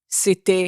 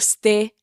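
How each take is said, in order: First: It is said in a careful, polished way. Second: It is said in a casual, everyday way. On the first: This is how she talks on stage. "j'essaie de parler sur scène" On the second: This is how she normally talks off stage. "Au lieu de dire"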